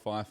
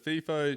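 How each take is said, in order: First: The first syllable does not sound like 'fifi'. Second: The first syllable sounds like the name 'fifi'. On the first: The speaker calls it right. "I'm a FIFO" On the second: The speaker calls it wrong. "It sounds a little bit too fifi"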